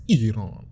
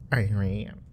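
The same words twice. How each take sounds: First: Iran said as "ee-RAHN"; native-style pronunciation. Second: Iran said as "eye-RAN". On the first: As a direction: say Iran with an opening ee and open ah, "ee-rahn". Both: Shown as a demonstration.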